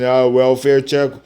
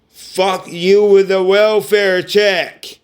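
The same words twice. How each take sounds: First: Said in the usual way. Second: Slower and louder, spitting each word; higher, slow, fed-up and furious; angry outburst. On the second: Real, not acted. Cursing out family over the welfare checks, loud and slow.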